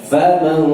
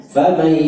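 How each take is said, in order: The two takes are said the same way.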